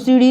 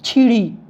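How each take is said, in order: First: The word begins with an s sound. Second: The word begins with a ch sound. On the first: This is the standard form. "सीढ़ी को सीढ़ी नहीं कहेंगे" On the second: This is the Bundeli dialect form. "वो लोग कहेंगे छीढ़ी"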